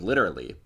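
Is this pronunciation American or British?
American. It is said in an American pronunciation. "I'm definitely on team literally"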